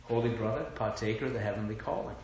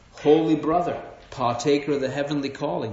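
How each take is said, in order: First: Softly imitating a friend's pious greeting; friend's scriptural greeting, hushed. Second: Friend's scriptural greeting. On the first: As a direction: recall his greeting quietly, quickening at the end. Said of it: "But that's how he talks". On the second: Retold or imitated. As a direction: hail a brother in lofty scripture words. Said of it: "That's how he talks to me".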